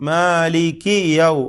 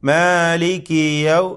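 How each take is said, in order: No difference in how they are said.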